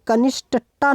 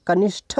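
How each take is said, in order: First: कनिष्ठता ending in an unaspirated ट; final cluster as ष्ट in कनिष्ठता; wrong ending sound. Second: कनिष्ठ ending in aspirated ठ. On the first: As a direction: say कनिष्ठता with a hard ट, no puff of air. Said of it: "नहीं होता". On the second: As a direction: puff of air on the ठ of कनिष्ठ. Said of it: "ये ठा होता है". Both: Shown as a demonstration.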